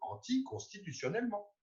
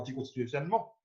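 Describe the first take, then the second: First: It is said slowly with every part articulated. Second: It is rushed out quickly and blurred. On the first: The speaker calls it right. "Non, c'est" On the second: The speaker calls it wrong. "C'est pas"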